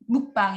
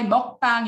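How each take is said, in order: First: The first vowel is an English 'u' sound. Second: The first vowel is the Korean 'eo' sound. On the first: "mukbang in English" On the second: "mukbang in Korean"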